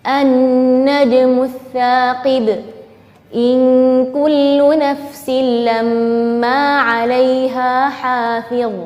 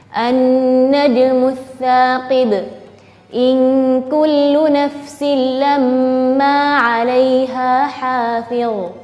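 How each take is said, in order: Both takes have the same delivery.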